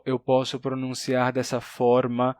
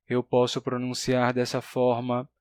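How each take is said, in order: First: "eu posso pronunciar dessa forma" slow on one pitch, contrasting R in "forma"; monotone, other R. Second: "eu posso pronunciar dessa forma" slow on one pitch, first R variant in "forma"; monotone, first R. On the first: ("eu posso pronunciar dessa forma" monótono, outro R) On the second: ("eu posso pronunciar dessa forma" monótono, primeira variante do R) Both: Shown as a demonstration.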